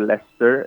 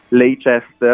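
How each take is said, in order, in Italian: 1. Il nome si pronuncia in forma abbreviata, saltando alcune sillabe. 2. Il nome si pronuncia con tutte le sillabe scritte. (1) "è Leicester" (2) "invece di Leicester"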